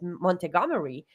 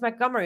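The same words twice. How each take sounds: First: Every written letter is fully pronounced. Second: Some written sounds are dropped. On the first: The speaker calls it wrong. "The first time I saw the word Montgomery, I said Montgomery" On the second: The speaker calls it right. "it's Montgomery. I'm like, damn, what is all of that doing in there?"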